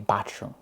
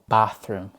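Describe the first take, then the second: First: The th is said as a t sound. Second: The th is said as a th sound.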